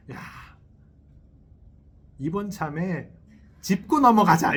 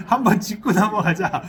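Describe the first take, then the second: First: Loud, firm "짚고 넘어가자" as if picking a fight; confrontational demand. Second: "한번 짚고 넘어가자" repeated with a laugh, louder; laughing mock demand. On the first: Retold or imitated. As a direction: imitate a partner insisting on having it out, louder. Acted quarrel between friends, spouses. (싸움 거는 듯 큰 소리로 "짚고 넘어가자") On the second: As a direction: playfully re-enact the challenge while laughing. Acted quarrel, repeated laughing. (웃으면서 장난스럽게 "한번 짚고 넘어가자")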